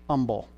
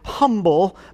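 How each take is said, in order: First: The word begins with no h sound. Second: The word begins with a clear h sound. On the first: "Silent H" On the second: "And the word is humble, but not where I grew up"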